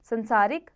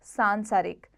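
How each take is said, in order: First: संसारिक with short san; wrong first vowel. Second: सांसारिक with long saan; correct long vowel. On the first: Teacher shows pupils the error, संसारिक with short first vowel. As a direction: say संसारिक as sansarik. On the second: Teacher corrects it, सांसारिक with long first vowel. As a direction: say सांसारिक as saansaarik. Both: Shown as a demonstration. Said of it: "कुछ अशुद्ध और शुद्ध".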